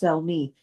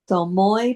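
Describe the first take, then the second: First: The name is given its English pronunciation. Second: The name is given its Hebrew pronunciation. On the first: "but in English it's Salmi" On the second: "In the Hebrew, it's Salmoi"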